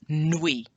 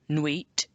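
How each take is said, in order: First: The word ends without a T sound. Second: The word ends with a T sound. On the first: The speaker calls it right. "The T is not pronounced" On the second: The speaker calls it wrong. "so it's not nuit"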